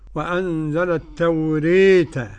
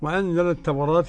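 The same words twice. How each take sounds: First: The vowel after r is fronted toward i. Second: The vowel after r is a fully open a. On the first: "كيف تكون الإمالة" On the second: "للفتح"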